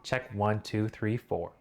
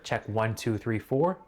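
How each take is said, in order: No difference in how they are said.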